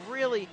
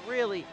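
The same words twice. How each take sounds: The two takes are said the same way.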